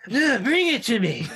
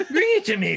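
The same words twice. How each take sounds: First: Put-on higher, laughing drunk demand. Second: Even higher, pushier laughing demand; drunk demand, higher. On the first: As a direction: bark the order like a drunk. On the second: Retold or imitated.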